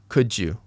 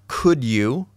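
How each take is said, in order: First: The words are linked, with 'you' kept. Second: Both words are said fully and separately. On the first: It sounds moderately formal. "I put this one in the middle" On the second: It sounds the most formal. "not could you"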